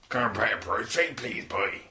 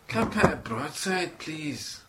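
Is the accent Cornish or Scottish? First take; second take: Cornish; Scottish. First: It is said in a deeper Cornish accent. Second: It is said in a Scottish accent.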